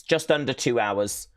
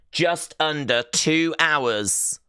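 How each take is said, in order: First: Said in the usual way. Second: "Just under two hours" drawn out slowly and pitched high; emphatic countdown. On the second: Real, not acted. Host counting down to WrestleMania for viewers, "two hours" drawn out emphatically.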